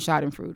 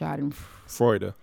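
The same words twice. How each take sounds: First: The final E is silent. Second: The final E is pronounced. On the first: The speaker calls it wrong. "I pronounced it Schadenfreude forever" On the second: The speaker calls it right. "it's pronounced Schadenfreude. The E is not silent"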